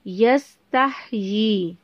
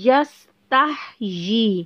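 Both takes have the same delivery.

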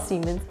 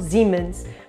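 First: It is pronounced in a Brazilian Portuguese way. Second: It is pronounced in a German-style way. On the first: This is how people in Brazil say it. "a gente que tá falando português do Brasil fala Siemens" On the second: This is how people in Portugal say it. "eles falam à la alemã"

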